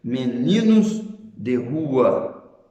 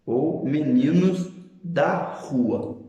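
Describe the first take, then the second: First: Slow, careful reading of meninos de rua; deliberate teaching delivery; slow contrast example. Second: Slow reading with weight on da; deliberate teaching delivery; slow contrast example. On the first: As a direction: spell out meninos de rua slowly, stressing de. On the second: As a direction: stress da in meninos da rua, slow and clear. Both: Shown as a demonstration. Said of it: "Veja, por exemplo".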